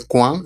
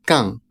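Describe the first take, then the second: First: "quan." said kwan, with a W and a plain N; common mistake. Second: "quand." said as kaŋ, a K then a nasal A, no W, no D; correct French pronunciation. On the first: Teacher mimics how learners wrongly say "quan." as kwan. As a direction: mispronounce "quan." the Spanish way as kwan. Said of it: "es muy común que la gente lo pronuncie". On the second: Teacher models "quand." for Spanish students as kaŋ, nasal and with no D. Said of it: "esta palabra se pronuncia así". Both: Shown as a demonstration.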